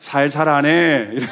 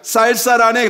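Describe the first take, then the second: First: The first consonant is a plain s. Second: The first consonant is a tense s.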